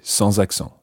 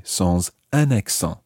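First: Said in the usual way. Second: Slow "sans UN accent", leaning on "un"; stress on UN. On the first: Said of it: "You just say". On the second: Shown as a demonstration. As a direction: set "un" apart as the unwanted word. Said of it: "You wouldn't say".

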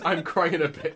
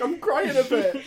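First: Said in the usual way. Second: Laughing. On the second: Real, not acted. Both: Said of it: "Is that my actual catchphrase?".

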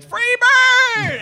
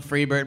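First: High yelled heckle; heckler yell. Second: Said in the usual way. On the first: Retold or imitated. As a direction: bellow it from the crowd. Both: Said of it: "stop yelling".

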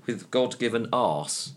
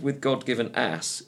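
First: "arse" said with the long open ah of English speech; God-given arse, with "arse" long and open, at a slow pace. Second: "ass" said with the short flat a of American speech; God-given ass, with "ass" short and flat. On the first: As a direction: stretch the vowel of "arse" slowly, English style. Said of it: "it's got". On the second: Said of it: "instead of". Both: Shown as a demonstration.

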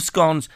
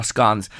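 First: "scones" with a long O, as in bones; scones rhyming with bones. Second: "scones" with a short open O, as in gone. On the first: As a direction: say "scones" to rhyme with tones. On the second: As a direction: say "scones" to rhyme with cons. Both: Shown as a demonstration. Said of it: "Some people call it a scone".

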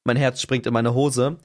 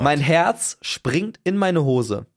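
First: Sinking, lower and less drawn-out; lower, subdued repeat. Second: Very slow, word by word; dramatic slow delivery. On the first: Storyteller caught in boxer shorts, lower dismayed delivery. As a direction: let it drop in dismay. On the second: Storyteller facing the horrified repairman, dramatically slowed. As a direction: stretch out every word for suspense. Dramatic climax, repeated for effect. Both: Retold or imitated.

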